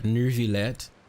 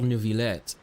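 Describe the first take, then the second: First: The name is said with an R sound. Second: The name is said without an R sound. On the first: "some of the people say Neuvillette with an R" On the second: "Or is it Monsieur Neuvillette?"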